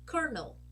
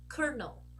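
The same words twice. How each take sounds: No difference in how they are said.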